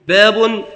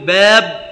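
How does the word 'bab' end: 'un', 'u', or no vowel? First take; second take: un; no vowel. First: The word ends with the sound 'un'. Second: The word ends with no vowel. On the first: It is the predicate of an omitted subject. "التنوين" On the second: It only counts the chapters, without grammatical case. "والتسكين على الوقف بلا إعراب"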